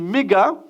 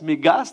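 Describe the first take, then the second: First: The word ends without any S sound. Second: The word ends with a pronounced S sound. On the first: "mais c'est méga" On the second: "Je ne sais pas si on prononce le S"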